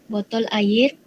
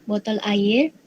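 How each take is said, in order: No difference in how they are said.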